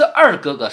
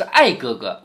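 First: 二 in 二哥哥 said with a clear curled èr; standard èr. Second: 艾哥哥, the southern slip of ài for èr. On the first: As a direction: say 二哥哥 with a proper retroflex èr. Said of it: "她叫的不是二哥哥，是艾哥哥". (二哥哥的“二”读标准卷舌音èr) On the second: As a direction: say 艾哥哥 with an open ài, no curled r. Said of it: "因为他二爱不分". (把“二”咬成“艾哥哥”的ài音) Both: Shown as a demonstration.

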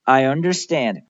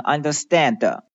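First: "understand" ending in a barely released D; light final D. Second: "understand" with an extra "de" after the final D; over-released D. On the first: Teacher giving learners the correct take, light final D. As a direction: let the D of "understand" fade with no extra syllable. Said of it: "也是一个轻轻的发的". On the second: Teacher warning learners against this, over-pronounced final D. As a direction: sound the last D of "understand" fully, as an added syllable. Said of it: "但不要发成". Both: Shown as a demonstration.

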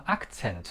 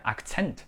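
First: "accent" stressed on the wrong syllable, as learners say it; misplaced stress. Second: "accent" stressed on the second syllable; correct stress. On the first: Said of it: "很多同学把第一个读成". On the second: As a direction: put the stress on the end, acCENT. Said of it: "正确的重音在accent第二个". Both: Shown as a demonstration.

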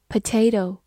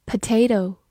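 Both takes have the same delivery.

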